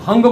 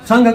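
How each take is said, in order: First: The word begins with an h sound. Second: The word begins with an s sound. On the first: "Assam में स के उच्चारण ह करते" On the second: "Assam में स के उच्चारण ह करते"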